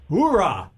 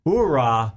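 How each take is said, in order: First: Upbeat cheer. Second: Cheer. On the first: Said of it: "Here's what I'd like you to say". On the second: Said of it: "can you repeat what you want me to say". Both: Shown as a demonstration.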